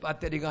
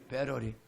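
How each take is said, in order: First: The middle consonant is a hard t sound. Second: The middle consonant is a soft flap sound. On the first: The speaker calls it wrong. "배터리가 아니고" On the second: The speaker calls it right. "영어 발음 똑바로 해요"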